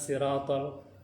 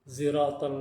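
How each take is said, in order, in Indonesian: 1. Kata ini diawali dengan bunyi s. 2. Kata ini diawali dengan bunyi z. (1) "pakai sin" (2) "atau pakai za"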